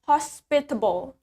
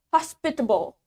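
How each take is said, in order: The two takes are said the same way.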